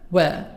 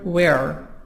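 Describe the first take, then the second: First: It is said in a British accent. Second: It is said in an American accent.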